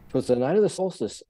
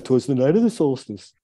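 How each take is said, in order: First: It is said in his own normal voice. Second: It is said in a Bullwinkle Moose voice.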